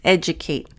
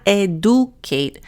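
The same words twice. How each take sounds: First: The middle consonant is a j sound. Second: The middle consonant is a plain d sound. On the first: The speaker calls it right. "Notice a schwa and the D is a j" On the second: The speaker calls it wrong. "So not educate"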